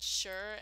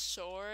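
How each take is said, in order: First: Said in the usual way. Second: "sure" with a rounded vowel, like "shoor"; odd accented "sure". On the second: Shown as a demonstration. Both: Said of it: "I don't think I've ever said sure as sure".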